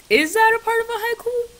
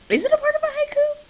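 First: High squeaky put-on voice; silly high-pitched question; weird voice. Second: Very high fast squeaky voice; fast cartoon squeak; weird voice. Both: Shown as a demonstration. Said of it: "I said that so weird".

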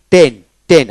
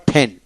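First: Said in the usual way. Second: "ঠেন" with a puff of air after the T; British aspirated T. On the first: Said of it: "আবার ঠেন". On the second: Shown as a demonstration. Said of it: "ঠেন মানে British".

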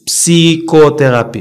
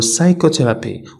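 First: "psychotherapy" as p-see-ko-terapy, drawn out slowly; P sounded. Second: "psychotherapy" starting sigh-ko, no P; silent P. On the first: Teacher shows what not to say, P sounded in "psychotherapy". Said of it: "ما كنقولوش". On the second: Teacher models the right word, silent P in "psychotherapy". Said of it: "كنقولوا psychotherapy". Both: Shown as a demonstration.

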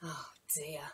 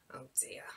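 First: Soft whispered oh dear; whispered sympathy. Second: Quieter, lower whisper; whispered oh dear. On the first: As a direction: breathe it out gently. Storyteller reacts to wet shoes. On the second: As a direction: let it sink in, barely voiced. Storyteller reacts again. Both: Acted.

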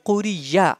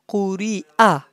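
First: Quriya ending in a gliding ya; ya for hamza. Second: Quri'a with a catch before the final a, no y; hamza pronounced. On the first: Teacher showing students the mistake to avoid, ya for hamza. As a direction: put a y sound in Quriya. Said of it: "That is not Quriya". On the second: Teacher correcting students' reading of ya, hamza pronounced. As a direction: break cleanly before the a in Quri'a. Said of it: "You should say Hamza". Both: Shown as a demonstration.

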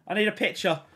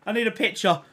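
Both takes have the same delivery.

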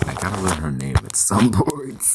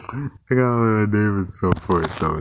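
First: Breaking into a laugh near the end; laughing through it. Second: Said in the usual way. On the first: Real, not acted. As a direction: say it while starting to laugh. Laughs at forgetting the name.

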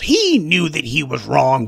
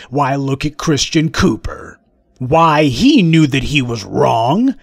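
First: Said in the usual way. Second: Slow, smug mock drawl of a bigot; a hint of a smug bigot, slow.

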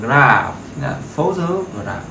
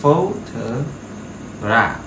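First: Photograph very slowly with PHO first and strongest; stress on PHO. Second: Photograph dragged out syllable by syllable, PHO stressed; slow model word. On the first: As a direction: stretch photograph, hit PHO. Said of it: "Nhận trọng âm nó sẽ là phố". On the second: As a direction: say Photograph at crawling pace. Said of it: "trọng âm nó sẽ là phố". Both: Shown as a demonstration.

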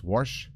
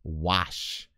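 First: "wash" said as "warsh"; mispronounced with an r. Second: "Wash" said carefully with no r; a careful, lower "Wash", open vowel straight into sh; correct pronunciation. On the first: Speaker admitting his usual slip, "wash" as "warsh". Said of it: "I usually am speaking so fast". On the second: Speaker quoting Connie's correction, "Wash" carefully without an r. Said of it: "Connie reminds me that it is". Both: Shown as a demonstration.

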